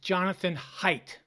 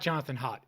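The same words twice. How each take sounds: First: The surname is said not sounding like 'hot'. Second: The surname is said to sound like 'hot'. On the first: The speaker calls it right. "It's Jonathan Haidt ... not Hot" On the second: The speaker calls it wrong. "It's not Jonathan Haidt"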